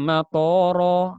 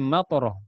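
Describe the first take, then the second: First: The middle vowel is held long. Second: The middle vowel is kept short. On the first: It means airport. The speaker calls it wrong. "matoro bandara" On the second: It means rain. The speaker calls it right. "hujan batu"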